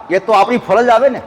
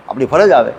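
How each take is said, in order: First: "આપણી ફરજ આવે ને" higher, seeking agreement; checking question. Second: "આપણી ફરજ આવે" lower, with a falling end; settled answer. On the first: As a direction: lift "આવે ને" as a question to listeners. શ્રોતાઓને સમર્થન માટે પ્રશ્ન. ("આવે ને" ઊંચા સૂરે પ્રશ્ન તરીકે) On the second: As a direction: answer your own question, dropping on "આવે". પોતાના પ્રશ્નનો નિશ્ચિત જવાબ. ("આવે" નીચા સૂરે નિશ્ચિત જવાબ) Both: Real, not acted.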